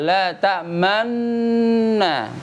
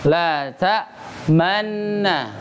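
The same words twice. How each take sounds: First: The nasal sound is held long from the start. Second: The nasal sound is short and plain. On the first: The speaker calls it right. "dipanjangkan dari awal" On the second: The speaker calls it wrong. "Umumnya orang bacanya pasti ngikutin sesuai ini aja. Tulisan"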